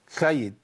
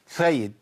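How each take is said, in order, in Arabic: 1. صوت السين فيه لثغة وغير واضح. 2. صوت السين فيه لثغة وغير واضح.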